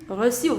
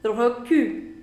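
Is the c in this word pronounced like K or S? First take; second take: S; K. First: The c is pronounced as a soft s. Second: The c is pronounced as a hard k. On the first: The speaker calls it right. "The correct pronunciation is reçu" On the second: The speaker calls it wrong. "I don't want to say recul"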